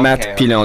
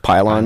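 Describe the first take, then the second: First: The name is said with a French pronunciation. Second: The name is said with an English pronunciation. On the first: This is how the name is meant to sound. "That's my French name" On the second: This is how English speakers usually say it. "every English people, you know, say Pylon"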